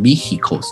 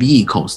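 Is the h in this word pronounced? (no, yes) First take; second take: yes; no. First: The h sound in the middle is pronounced. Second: The h sound in the middle is silent. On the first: "有的人念vehicles，因为有个h" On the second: "它念vehicles"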